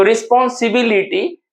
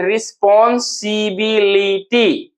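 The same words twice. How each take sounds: First: Said in the usual way. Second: "रिस्पॉन्सिबिलिटी" very slowly, each syllable drawn out; syllable breakdown. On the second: Shown as a demonstration. Teacher locating fourth-syllable stress, "रिस्पॉन्सिबिलिटी" slow and separated. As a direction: stretch "रिस्पॉन्सिबिलिटी" into spaced pieces. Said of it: "fourth पे हमारा stress".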